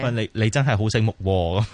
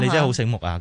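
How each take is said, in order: First: It is said as sarcastic, mocking praise. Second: It is said as sincere, positive praise.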